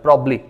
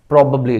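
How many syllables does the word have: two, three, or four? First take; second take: two; three. First: Only one b is heard, giving two syllables. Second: One vowel is dropped, giving three syllables. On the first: "एक ही बी को पढ़ा जाता है" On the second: "इस ए को खत्म कर दें"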